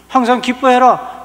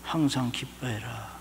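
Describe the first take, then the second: First: Loud, high, slow decree; preaching the verse at full force; proclaimed command. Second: Soft, slow and low, 항상 leaned on; a still small voice within; God's quiet voice in the heart; inner voice. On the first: Acted. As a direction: thunder it out from the pulpit. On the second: Retold or imitated. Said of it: "갑자기 제 마음속에".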